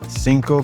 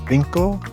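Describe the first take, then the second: First: The first consonant is an s sound. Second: The first consonant is a th sound. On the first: "in Central and South America, it will sound like an S sound" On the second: "in Spain... generally you will hear a T H sound"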